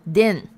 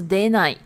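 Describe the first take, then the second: First: The word ends with a short 'n' sound. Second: The word ends with a full 'nai' syllable. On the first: This is the casual spoken negative form. "比较口语的说法会变成den" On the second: This is the standard negative form. "出的这个否定呢是出ない"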